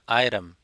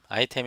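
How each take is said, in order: First: The t is a soft flap like r. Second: The t is a clear, full t sound. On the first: The speaker calls it right. "미국식" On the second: The speaker calls it wrong. "아이템이 아니라"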